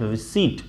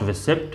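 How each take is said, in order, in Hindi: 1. 't' से पहले 'p' की कोई आवाज़ सुनाई नहीं देती। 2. 't' से पहले 'p' की आवाज़ सुनाई देती है। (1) "पी is silent" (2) "not रिसिप्ट"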